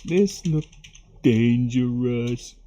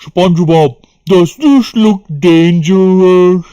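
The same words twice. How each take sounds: First: Softer, very slow half-voiced cartoon line; quiet SpongeBob quote. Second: Loud, slow, drawn-out cartoon voice; SpongeBob quote. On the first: Streamer softly repeating the SpongeBob line, very slow. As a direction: mumble the cartoon line to yourself, slowly. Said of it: "Remember this one?". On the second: Streamer quoting the SpongeBob hooky episode, loud and slow. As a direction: ham up the cartoon line. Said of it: "Remember that?".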